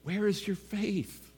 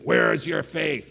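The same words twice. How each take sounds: First: It sounds soft and loving. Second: It sounds sharp and scolding. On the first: The listeners are cared for and should trust. The speaker calls it right. "he maybe said it this way. ... Out of love for them, trust me" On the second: The listeners should stop being foolish. The speaker calls it wrong. "maybe Jesus said it this way, ... Like, come on, you know, smarten up"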